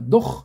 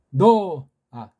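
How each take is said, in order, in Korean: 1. 이 이름은 숨이 섞인 'h' 소리로 끝나요. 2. 이 이름은 덧붙은 부드러운 'a' 모음으로 끝나요. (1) "정확히 하려면 노흐라고 하고 싶습니다" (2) "부드러운 소리 첨가해 준 거 하면"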